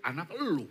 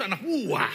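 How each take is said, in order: First: "lu" lifted in pitch, pinning it on the listener; stress on LU. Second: "gua" punched high and loud; stress on GUA. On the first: Husband disowning the naughty child, stress on "lu". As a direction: lean on "lu" with a rise and fall. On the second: Husband claiming the good child, loud stress on "gua". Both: Retold or imitated. Contrasts your child with mine.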